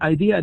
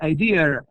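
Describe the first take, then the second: First: The word ends in a vowel without R. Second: The word ends with an added R sound. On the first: "instead of saying idea" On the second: "they put an R in a place which does not belong"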